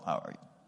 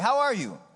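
First: It is mumbled quietly and without energy. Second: It is said clearly with confident energy. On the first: The speaker is unsure about greeting people. The speaker calls it wrong. "sometimes people mumble" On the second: The speaker greets people with assurance. The speaker calls it right. "I'm going to do it with confidence"

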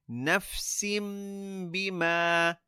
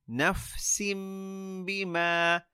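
No difference in how they are said.

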